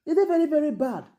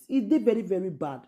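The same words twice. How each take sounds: First: "E dey very, very bad" pitched much higher, louder, each "very" hit hard; outraged exclamation, "very, very" pushed up and loud; emphatic repeat. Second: Said in the usual way. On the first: Real, not acted. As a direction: hammer "very, very bad" up high the second time.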